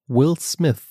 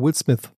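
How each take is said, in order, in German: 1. Der Name wird in normalem, sorgfältigem Tempo gesprochen. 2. Der Name wird schnell gesprochen.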